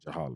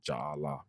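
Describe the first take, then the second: First: One word with the two parts run together. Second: Two separate words with the vowels kept apart. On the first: "you make a Leah song with the word to make Jahala" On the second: "Some people pronounce it Jah Allah"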